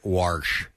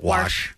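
First: It is said with an added r sound. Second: It is said without an r sound.

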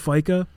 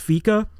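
First: The first vowel sounds like 'eye'. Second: The first vowel sounds like 'ee'. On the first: The speaker calls it wrong. "instead of Fika" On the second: The speaker calls it right. "I think it's Fika ... like IKEA ... It's like an E sound"

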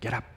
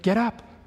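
First: It sounds annoyed and embarrassed. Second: It sounds gentle and reassuring.

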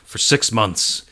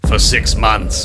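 First: It is said in a normal voice. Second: It is said in an evil villain voice.

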